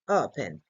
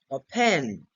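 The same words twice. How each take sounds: First: The stress is on the first syllable. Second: The stress is on the second syllable. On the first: The speaker calls it right. "the stressed syllable is O" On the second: The speaker calls it wrong. "We don't say open... the emphasis could be here with the word pen"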